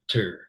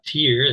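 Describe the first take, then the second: First: The vowel is a reduced schwa sound. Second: The vowel is a long E sound. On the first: The speaker calls it right. "It's a schwa" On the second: The speaker calls it wrong. "It's not the long E"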